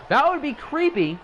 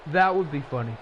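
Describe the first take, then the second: First: Much higher and louder, a spooky jokey lilt; mock creepy. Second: Said in the usual way. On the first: Shown as a demonstration. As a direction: make the word creepy sound eerie.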